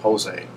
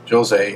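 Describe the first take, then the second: First: The name is said the Spanish way. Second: The name is said the English way. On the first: "in America here, we would pronounce his name Jose, as the Spanish pronunciation" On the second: "as that is how England pronounces it"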